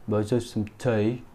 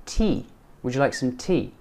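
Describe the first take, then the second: First: "tea" as "tay" in a mimicked regional UK accent; imitated regional accent. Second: "tea" rhyming with "see"; clear EE in tea. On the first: Teacher mimicking another UK accent, regional "tay" for "tea". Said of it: "This guy's saying tea". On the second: Shown as a demonstration. Teacher modelling an offer, "tea" with a clear long EE. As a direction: model the question with a pure EE in "tea". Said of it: "rather than tea".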